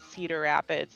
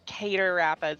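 First: The first word sounds like plain 'cedar'. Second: The first word sounds like 'cater'. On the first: This is the usual way to say it. "not Cedar Rapids" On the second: This is how a Canadian video creator says it. "He says Cedar Rapids"

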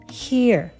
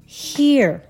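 First: The word ends with a pulled-back tongue r. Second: The word ends with a pulled-back tongue r.

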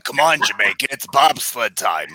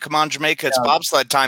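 First: It is said in a put-on character voice. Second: It is said in the speaker's natural voice.

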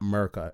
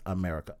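First: The first syllable is dropped from the word. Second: The word is said with all its syllables. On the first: The speaker calls it wrong. "some of them say Merca. It's not Merca" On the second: The speaker calls it right. "it's America"

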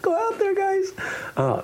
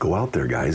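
First: The voice is pitched high. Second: The voice is pitched low. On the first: The speaker sounds light and lacks authority. The speaker calls it wrong. "So you wouldn't say" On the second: The speaker sounds strong and authoritative. The speaker calls it right. "the lower tones connote strength, authority"

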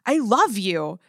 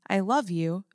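First: It is yelled loudly and excitedly. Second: It is said softly and gently. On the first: "yelling, ... which that sounded really excited" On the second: "very gently"

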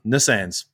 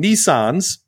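First: The word is said with an Australian pronunciation. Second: The word is said with an American pronunciation. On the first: "where we call them Nissans" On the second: "you Americans ... You call them Nissans"

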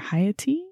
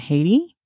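First: The name is said the native-style way. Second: The name is said the common anglicized way. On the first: The speaker calls it right. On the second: The speaker calls it wrong.

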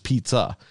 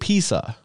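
First: The middle consonant is a ts sound. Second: The middle consonant is a plain s sound. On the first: "It should be a Z sound, but it's pizza" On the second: "like P-E-A-S-S-A, is essentially how my grandmother would say it"

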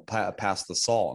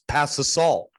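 First: It is said at a normal, quiet volume. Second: It is yelled loudly.

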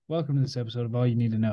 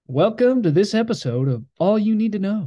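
First: It is said toned down, with low energy. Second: It is said with moderate, in-between energy.

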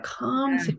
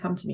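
First: It is said with a deep, yearning longing. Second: It is said in a plain, matter-of-fact way.

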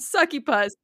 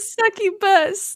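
First: The consonant before the last syllable is a P. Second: The consonant before the last syllable is a B. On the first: "But succubus is way better, and that is the only way I'm saying it from now on" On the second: "It's a B, not a P"

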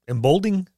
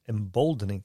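First: The word is said with three syllables. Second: The word is said with four syllables. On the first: The speaker calls it wrong. "Am I saying that right?" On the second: The speaker calls it right. "I thought it was another syllabic in there, syllable in there"

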